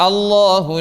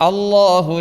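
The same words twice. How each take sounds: The two takes are said the same way.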